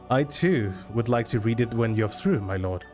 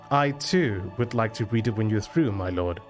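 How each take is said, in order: The two takes are said the same way.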